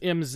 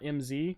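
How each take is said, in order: First: The letter Z is said the non-American way. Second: The letter Z is said the American way. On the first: The speaker calls it right. "it apparently is M Z" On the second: The speaker calls it wrong. "and not M Z"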